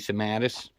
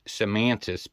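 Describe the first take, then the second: First: No 'n' sound comes before the 't'. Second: An 'n' sound comes before the 't'. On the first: The speaker calls it right. "but it's actually Sematis" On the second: The speaker calls it wrong. "A lot of people think it's Semantis baits"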